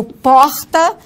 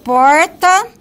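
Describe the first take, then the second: First: Porta with a throaty R; porta second variant. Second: Porta with a retroflex R; porta demo. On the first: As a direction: say porta with a guttural R. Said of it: "ou porta". (porta com R aspirado) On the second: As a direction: say porta with a curled R. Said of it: "independe de eu dizer". (porta com R retroflexo) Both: Shown as a demonstration.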